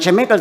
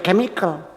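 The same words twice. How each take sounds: First: The word begins with a ch sound. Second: The word begins with a k sound. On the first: The speaker calls it wrong. "Bukan chemical" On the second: The speaker calls it right. "tapi chemical"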